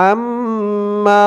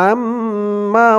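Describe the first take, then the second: No difference in how they are said.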